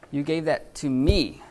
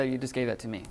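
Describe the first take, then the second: First: Slow, with "me" punched and drawn out; stress on me. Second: Said in the usual way. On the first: Shown as a demonstration. Teacher demonstrating emphatic pronoun to class, stress on "me". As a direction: lean hard on "me" for emphasis. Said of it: "the reason for the accent or the epsilon is for emphasis". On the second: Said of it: "just regular way of saying it".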